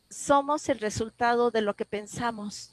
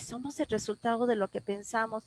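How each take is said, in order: First: Measured, very distinct delivery of a heard message; clear, strong voice. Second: Said in the usual way. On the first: Retold or imitated. Inner voice answering a grieving woman's plea, clear and strong. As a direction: say it clearly and deliberately, like an answer given. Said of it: "una voz muy clara".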